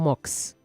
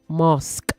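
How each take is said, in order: First: The final sk sound is not clearly pronounced. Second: The final sk sound is clearly pronounced. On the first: The speaker calls it wrong. "not mosque" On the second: The speaker calls it right. "sk, sk"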